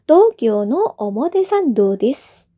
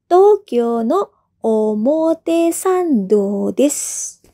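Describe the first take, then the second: First: It is said at a normal speed. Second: It is said more slowly.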